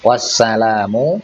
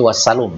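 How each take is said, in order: First: The L is followed by a long a sound. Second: The L is followed by a short u sound. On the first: This follows the mark in the standard text. The speaker calls it right. "ada fathah yang tegak" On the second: This follows a misprinted mark in the text. The speaker calls it wrong. "kalau mau dibaca wassalum gitu ya"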